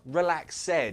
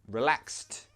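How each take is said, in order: First: The ending is said as an extra syllable. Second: The ending is said as a t sound. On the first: The speaker calls it wrong. "Not relaxed" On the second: The speaker calls it right. "we pronounce the ed like a t sound"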